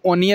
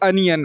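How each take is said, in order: First: The first vowel sounds like 'o'. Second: The first vowel sounds like 'uh'. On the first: The speaker calls it wrong. "ओनियन नहीं होता" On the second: The speaker calls it right. "यहाँ ओ का उच्चारण अ हो जाएगा"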